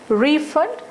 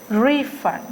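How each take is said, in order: First: The stress is on the second syllable. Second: The stress is on the first syllable.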